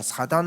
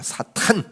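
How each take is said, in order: First: The middle consonant is soft and unaspirated. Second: The middle consonant is strongly aspirated. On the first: The evil one sounds mild. The speaker calls it wrong. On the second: The evil one sounds hostile. The speaker calls it right.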